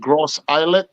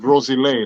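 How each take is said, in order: First: It is said as two separate English words. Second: It is said as one blended word. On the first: The speaker calls it wrong. "It looked like Gross Islet" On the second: The speaker calls it right. "but it's Groselet. That's how you pronounce it"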